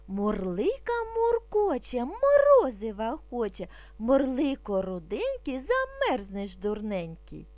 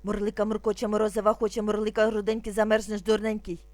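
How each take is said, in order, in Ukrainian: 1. Промовляється спокійно і повільно. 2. Промовляється дуже швидко. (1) "Спочатку будемо вимовляти спокійно, не спіша" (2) "А зараз дуже швидко"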